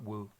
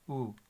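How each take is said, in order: First: It starts with a clear w sound. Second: It is a plain oo vowel without w. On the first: The speaker calls it wrong. "It's not Wu" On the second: The speaker calls it right. "but it's still U"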